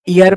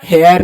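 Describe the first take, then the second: First: The word starts with a vowel sound. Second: The word starts with an h sound. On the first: The speaker calls it right. "इसको ईयर पढ़ते" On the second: The speaker calls it wrong. "इसको हेयर नहीं"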